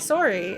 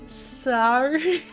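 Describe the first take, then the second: First: It is said with a Canadian-sounding vowel. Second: It is said with an American-sounding vowel. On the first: This is how the speaker has always said it. "when I say sorry, and people are like, "Oh, you've been in Canada a while" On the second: The speaker is attempting an unnatural alternative. "if I try saying sorry, sorry, people say just stop"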